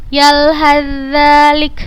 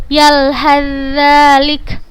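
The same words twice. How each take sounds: The two takes are said the same way.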